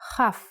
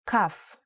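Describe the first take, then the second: First: It starts with a throaty ch sound. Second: It starts with a hard k sound. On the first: The letter has no dot inside. "Without the dot, it sounds like Ch" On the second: The letter has a dot inside. "only pronounced like K when it has a dot inside"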